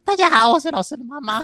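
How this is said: It is said in a put-on female voice.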